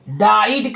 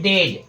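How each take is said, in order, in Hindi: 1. स्वर 'eye' जैसा बोला जाता है। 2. स्वर छोटे 'eh' जैसा बोला जाता है। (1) "कुछ लोग कहते हैं इसको, डाइड कहते हैं" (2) "जो सही है वो है डेड"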